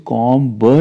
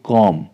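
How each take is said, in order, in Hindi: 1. अंत में b ध्वनि सुनाई देती है। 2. शब्द m ध्वनि पर खत्म होता है। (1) "इसको कॉम ब नहीं बोलेंगे"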